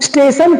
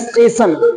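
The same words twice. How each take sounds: First: The word starts directly with the s sound. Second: An extra vowel sound comes before the s. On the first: The speaker calls it right. "स्टेशन की जगह" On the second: The speaker calls it wrong. "एक नए स्वर को उसमें लाके शामिल कर देने का काम"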